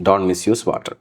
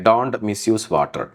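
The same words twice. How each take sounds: First: Said in the usual way. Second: Slow dictation. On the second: Shown as a demonstration. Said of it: "slow example read".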